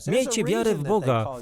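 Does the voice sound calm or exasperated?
exasperated. It is said in an exasperated, scolding way. A rebuke for being surprised. The speaker calls it right. "Prawdopodobnie brzmiało to: ... co jest z wami nie tak?"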